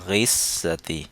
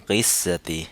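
No difference in how they are said.

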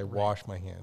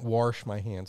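First: The word wash has no R sound. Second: The word wash has an R sound inserted. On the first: The speaker calls it right. "No R" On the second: The speaker calls it wrong. "I don't wash my hands"

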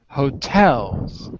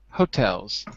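First: The stress is on the second syllable. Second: The stress is on the first syllable. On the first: The speaker calls it right. "I'm saying hotels" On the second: The speaker calls it wrong. "You're saying hotels"

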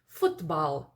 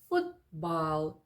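First: The t is released with a puff of air. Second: The t is held back and barely heard. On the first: The speaker calls it wrong. "нейтіви не кажуть футбал" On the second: The speaker calls it right. "Вони кажуть футбал"

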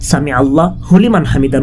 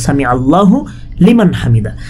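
First: The syllable 'hu' is joined to 'liman'. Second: The syllable 'hu' is joined to 'Allah'. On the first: The speaker calls it wrong. "এটা সামি আল্লাহ হুলিমান হামিদা নয়" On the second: The speaker calls it right. "বরং সামি আল্লাহু লিমান হামিদা"

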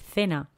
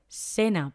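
First: The first consonant sounds like a th. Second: The first consonant sounds like an s. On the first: "en lugar de" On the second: "en la parte de Latinoamérica se utiliza esto sobre todo con la S"

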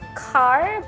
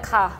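First: The final R sound is pronounced. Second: The final R sound is dropped.

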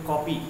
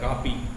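First: The first vowel is a rounded 'aw' sound. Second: The first vowel is an open unrounded 'aa'. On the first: The speaker calls it right. "अंग्रेजी का जो शब्द है वो है कॉपी" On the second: The speaker calls it wrong. "अगर ऐसे लिखेंगे तो कापी हो जाएगा"

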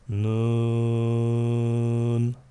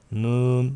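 First: The vowel is held long, about four counts. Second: The vowel is short and not held. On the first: The speaker calls it right. "dört elif uzat demek" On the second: The speaker calls it wrong. "Nun değil"

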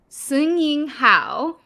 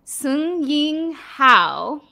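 First: The name is said at a normal pace. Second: The name is said slowly and carefully.

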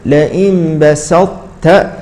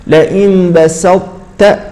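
Both takes have the same delivery.

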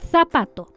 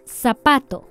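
First: The z is sounded like th. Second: The z is sounded like s. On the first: "Sin ceseo" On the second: "con ceseo"

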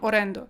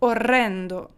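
First: The r sound is short. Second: The r sound is held long. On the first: The speaker calls it wrong. "Не просто там орендо" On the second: The speaker calls it right. "вимовляйте їх. Так, щоб я чула"

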